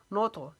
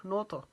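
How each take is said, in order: First: नो तो with the त bounced, not cut short; qalqala on ta. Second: नो तो said with echoing त; qalqala correct. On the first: Teacher contrasts a wrong clipped take with qalqala. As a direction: let the त of नो तो rebound. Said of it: "इसको नुत नहीं पढ़ेंगे". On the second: Teacher gives students the correct qalqala take. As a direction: bounce the त in नो तो. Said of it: "ये कलकला है". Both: Shown as a demonstration.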